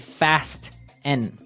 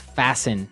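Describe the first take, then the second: First: The T sound is clearly pronounced. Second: The T sound is silent. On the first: The speaker calls it wrong. "so it would be fast N" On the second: The speaker calls it right. "The T kind of becomes silent. So it's fasten"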